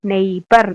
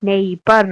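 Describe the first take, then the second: No difference in how they are said.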